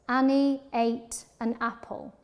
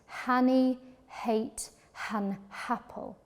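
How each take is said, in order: First: Each word starts directly on the vowel. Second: Each word starts with a breathy h sound. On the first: The speaker calls it wrong. "hitting the vowel sounds at the beginning" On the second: The speaker calls it right. "add an H sound at the beginning of each word"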